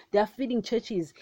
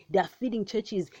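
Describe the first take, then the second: No difference in how they are said.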